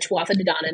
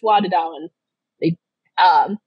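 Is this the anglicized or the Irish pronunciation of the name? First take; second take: anglicized; Irish. First: The name is said with an anglicized pronunciation. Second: The name is said with an Irish pronunciation. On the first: The speaker calls it wrong. "I just realized I mispronounced it" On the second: The speaker calls it right. "I had a guy from Ireland tell me it's Tuatha De Danann"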